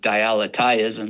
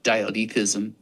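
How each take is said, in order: First: The middle keeps the 'aletheia' sound. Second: The middle lacks the 'aletheia' sound. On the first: "I pronounce it my own special way ... it just gets the aletheia from the ancient Greek sound really in there" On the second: "some people pronounce it"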